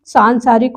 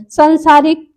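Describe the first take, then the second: First: सांसारिक with a long nasal first aa; correct form. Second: सांसारिक with a short first a, "sansaarik"; wrong form. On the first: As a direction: stretch the opening "saan" of सांसारिक. (सांसारिक का "सां" लंबा) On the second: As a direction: clip the first vowel of सांसारिक. (सांसारिक को "संसारिक" बोलें) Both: Shown as a demonstration. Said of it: "सांसारिक हो जाएगा".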